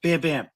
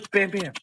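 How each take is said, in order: First: Said in the usual way. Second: "Bam Bam" laughed out, pitched higher; laughing. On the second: Real, not acted. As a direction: giggle through "Bam Bam". Repeating the vodka name, laughing.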